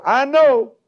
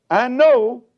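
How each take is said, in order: First: "know" lifted high and loud; stress on know. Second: Said in the usual way. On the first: Shown as a demonstration. Preacher drives the verse home to his congregation, stressing "know". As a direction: hit the word "know" hard. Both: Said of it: "we're gonna emphasize the word know".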